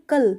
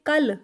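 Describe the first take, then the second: First: "कल" with a single light ल; Hindi pronunciation. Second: "कल" with a heavier, held ल; Punjabi pronunciation. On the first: Teacher giving learners the Hindi word, "कल" in Hindi pronunciation. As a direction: say "कल" the Hindi way, short final l. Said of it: "Hindi में हम बोलते हैं". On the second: Teacher contrasting with Hindi, "कल" in Punjabi pronunciation. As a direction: say "कल" as Punjabi "kall", doubled l. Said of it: "कल हम पंजाबी में जब बोलते हैं". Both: Shown as a demonstration.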